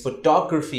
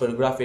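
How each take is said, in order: First: Photography with to stressed; photography as pho-TO-gra-phy. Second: Photography with the stress wrongly on pho; photography as PHO-to-gra-phy, marked as incorrect. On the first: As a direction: hit the second syllable to in photography. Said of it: "you stress on T O". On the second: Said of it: "it's not photography". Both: Shown as a demonstration.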